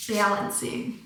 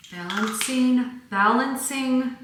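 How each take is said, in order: First: Balancing said with a broad Michigan a; a quiet Michigan balancing; Michigan accent. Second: The word Balancing with a Michigan vowel, drawn out slowly; slow Michigan-accented Balancing. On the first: Shown as a demonstration. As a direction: lean into the Michigan vowel in balancing. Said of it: "I don't know why I say it like that". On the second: Real, not acted. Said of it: "the one word I can still hear my Michigan accent".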